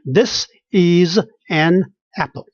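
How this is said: Each word is said separately, Chinese-accented style.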